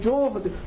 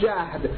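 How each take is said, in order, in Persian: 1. اولین مصوت 'u' گرد است. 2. اولین مصوت 'a' باز است. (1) "بضم فی الحجاز ... حجازی ها میگن جهد" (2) "بالفتح فی غیرهم ... جاهای دیگه میگن جهد"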